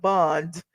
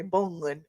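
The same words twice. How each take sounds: First: Said in the usual way. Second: Bond in a Southern twang; Southern-accented "bond". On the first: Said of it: "instead of bond". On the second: Shown as a demonstration. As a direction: say "bond" with a little Southern drawn-out vowel. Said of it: "I got a little Southern twang".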